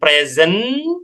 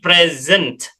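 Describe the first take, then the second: First: The word ends without a t sound. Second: The word ends with a clear t sound. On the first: The speaker calls it wrong. "jangan present" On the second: The speaker calls it right. "ada t-nya"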